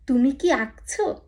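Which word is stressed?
আঁকছো. The stress falls on the verb আঁকছো. It asks whether the listener is drawing. "এটা না"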